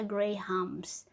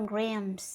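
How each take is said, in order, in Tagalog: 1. Binibigkas ito bilang dalawang pantig, may H. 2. Binibigkas ito bilang isang pantig, walang H. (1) "Hindi siya Grahams" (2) "Parang wala yung H. Parang Grams"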